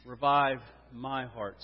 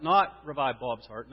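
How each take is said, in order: First: Slow, lower voice, "my heart" set apart and weighted; stress on my heart. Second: "Not" lifted, then "Bob's" set apart as the wrong person; slow correction, pointing up "Bob's"; contrastive stress. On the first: Preacher has congregation repeat it, stress on my heart. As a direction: land deliberately on "my heart". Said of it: "It's two words, "my heart". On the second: Preacher rules out praying for others, contrast on Bob's. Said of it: "Here is the emphasis". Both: Shown as a demonstration.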